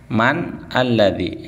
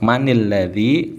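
First: Man is said plainly, without a linking vowel. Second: Man links into the next word with an i. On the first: "Aslinya kan man" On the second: "kalau mau dibaca sambung, yang sukun sebelum alif lamnya itu dibaca kas kasrah"

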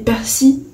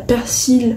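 First: The final L sound is left silent. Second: The final L sound is pronounced. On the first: "persi sans L" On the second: "persil avec le L"

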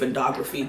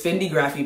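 First: The second vowel sounds like 'oh'. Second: The second vowel sounds like 'ih'. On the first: The speaker calls it wrong. "I was gonna say Fendography, that's not it" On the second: The speaker calls it right. "It's Fendigraphy bag"

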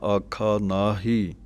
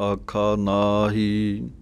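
No difference in how they are said.

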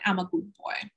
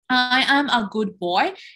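First: It is said too fast, with words run together. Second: It is said at a careful, clear pace. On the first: The speaker calls it wrong. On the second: The speaker calls it right.

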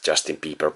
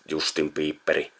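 First: The name ends with a consonant sound. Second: The name ends with an added vowel sound. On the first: "I know it's Justin Bieber" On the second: "Or just [name]"

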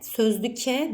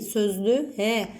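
First: The word is said with a hard k sound. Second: The word is said with a soft g sound. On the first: The speaker calls it wrong. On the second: The speaker calls it right.

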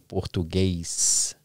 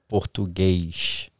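First: The word ends with an 's' sound. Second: The word ends with an 'sh' sound. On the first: This is how people from other states say it. "with the S" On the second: This is how people from Rio say it. "that sh- at the end, you know, it's very common from people from Rio"

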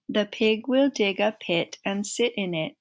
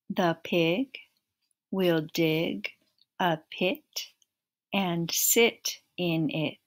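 First: It is said at the fastest pace. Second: It is said at a slow, steady pace.

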